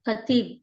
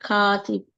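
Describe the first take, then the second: First: The first vowel is short. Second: The first vowel is long. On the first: The speaker calls it wrong. "మొదటి ద అక్షరంలో తప్పు చేస్తున్నారు" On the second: The speaker calls it right. "ఇక్కడ కాకు దీర్ఘముంది"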